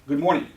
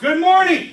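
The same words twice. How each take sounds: First: It is said with moderate energy. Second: It is said with full energy and enthusiasm.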